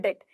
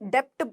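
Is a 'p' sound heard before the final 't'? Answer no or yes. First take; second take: no; yes. First: No 'p' sound comes before the final 't'. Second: A 'p' sound comes before the final 't'. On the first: The speaker calls it right. "अंग्रेजी में हम इसे डेट बोलते हैं" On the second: The speaker calls it wrong. "ऐसे इसको नहीं बोलना है"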